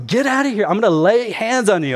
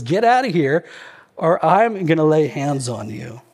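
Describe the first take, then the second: First: Raised, high mock-angry threat; hammed-up rage, higher pitch; Hulk. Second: Mildly enraged threat, acted out; a restrained mock-furious warning. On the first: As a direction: play at blowing up like the Hulk. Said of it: "So he goes Hulk again". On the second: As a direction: quote an angry man, only a touch of fury. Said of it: "He's enraged about this".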